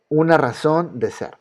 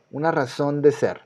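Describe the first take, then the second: No difference in how they are said.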